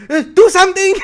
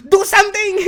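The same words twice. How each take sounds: First: High, loud, helpless squeal of a flustered teacher; shrill-sounding panic voice, much higher and louder; panicked teacher. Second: High, loud, helpless squeal of a flustered teacher; exaggerated high panic cry; panicked teacher. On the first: Retold or imitated. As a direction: plead for help like a teacher who has lost control. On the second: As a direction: beg the student to step in. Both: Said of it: "Is that exactly how he sounded?".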